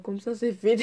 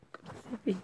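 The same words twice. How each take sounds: First: Said in the usual way. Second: Breathy whisper through a giggle; softly giggling, almost voiceless; whispered laugh. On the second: Real, not acted. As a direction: laugh it out under your breath.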